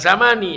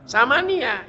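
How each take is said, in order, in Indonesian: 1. Kata ini berakhir dengan bunyi i pendek. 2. Kata ini berakhir dengan tambahan suku kata ya. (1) "Bukan sama nih" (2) "Ya-nya baris fathah"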